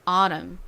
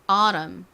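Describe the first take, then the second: First: It is said in an American accent. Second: It is said in an American accent.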